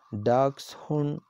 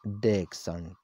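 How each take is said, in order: First: Dachshund said DAKS-hun, a touch higher; dachshund, German style. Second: Dachshund said DEK-sun, low and quiet; dachshund, English style. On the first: Teacher shows the DAKS-hun reading of Dachshund. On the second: Teacher shows the DEK-sun reading of Dachshund. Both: Shown as a demonstration. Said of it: "This is the pronunciation of this word".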